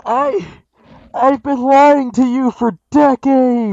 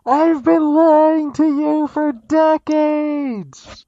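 First: Loud, high and slow; to someone hard of hearing. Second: Very slow, loud and high; to someone hard of hearing. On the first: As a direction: project every word slowly. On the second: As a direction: stretch each word out loudly. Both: Pretend. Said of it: "Could you speak up, please?".

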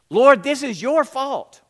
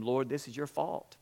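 First: Loud, high, hurling the blame; angry accusation. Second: Softly reproachful, low and subdued; Mary and Martha complain quietly to Jesus, a hushed lament; quiet complaint. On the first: Martha to Jesus after her brother's death, loud accusing outburst. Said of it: "Martha came out and attacked him". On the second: Martha to Jesus, hushed blaming complaint. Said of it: "they both complained to him". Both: A narrator's reading.

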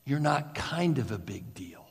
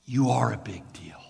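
First: Said in the usual way. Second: Whispered, faster, "You are a big deal" as a secret truth; intimate whisper. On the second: Shown as a demonstration. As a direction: breathe it to them like a confession.

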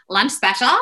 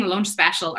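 First: "special" in a put-on American accent. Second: Said in the usual way. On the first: Shown as a demonstration. Speaker comparing how she orders, "lunch special" in mock American. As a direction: say "lunch special" like a Valley Girl. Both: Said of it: "they don't sound that different".

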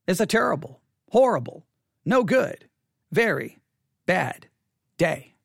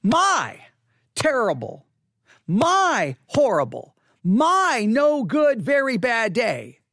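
First: A pause after each of "terrible, horrible, no good, very bad day"; deliberate pauses. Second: Each "My" drawn out and leaned on hard; stress on MY. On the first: Pastor asking congregation about their Sunday, "terrible, horrible, no good, very bad day" in separate pieces. Poses the question, word by word. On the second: Pastor exposing his self-focus to congregation, heavy drawn-out stress on "My". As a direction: hit every "my" in "My terrible, my horrible, my no good", stretched with emphasis. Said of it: "The emphasis was on me". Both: Shown as a demonstration.

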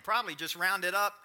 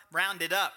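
First: Said in the usual way. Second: "up" punched louder at the end; stress on UP. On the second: Shown as a demonstration. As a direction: lean hard on "up" with a grin. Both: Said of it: "Emphasis on up".

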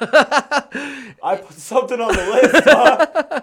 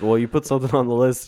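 First: High, loud, slow laughing mockery. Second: Fast mock quote of a friend. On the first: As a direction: squeal it through laughter. Laughing mock of himself. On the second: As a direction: quote your friend quickly and teasingly. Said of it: "And then you're just like".

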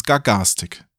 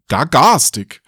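First: Said in the usual way. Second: "Gar garstig" repeated, amused and a bit louder; amused questioning. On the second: Real, not acted. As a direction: savour "Gar garstig" with a wry grin. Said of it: "Sehr schön".

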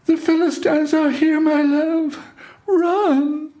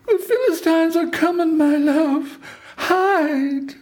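First: Very high, held falsetto wail of warning; Delilah's false alarm. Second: Very high, held falsetto warning call; Delilah's cry. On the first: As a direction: cry out the alarm as Delilah, far above your own voice. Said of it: "raised her voice with wails and tears". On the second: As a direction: cry out to wake him as Delilah, far above your own voice. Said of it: "and then she cried". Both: A narrator's reading.

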